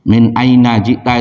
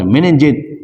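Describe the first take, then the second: First: Each word is pronounced fully and separately. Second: The words are run together into one short word. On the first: This is the formal book Arabic form. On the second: This is how Arabs say it in everyday speech.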